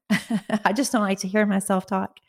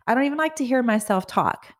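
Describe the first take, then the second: First: Laughing, leaning on "hear"; amused self-correction with a laugh. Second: Said in the usual way. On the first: Real, not acted. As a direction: chuckle through it, stressing "hear". Laughing restatement, stress on hear.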